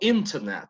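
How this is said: The t after the n is clearly pronounced. "para un británico"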